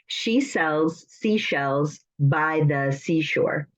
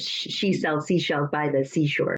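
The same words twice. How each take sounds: First: It is said slowly with pauses between phrases. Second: It is said quickly without pauses between phrases. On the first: "I put the slashes so you can know when to pause" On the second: "you're supposed to do it faster"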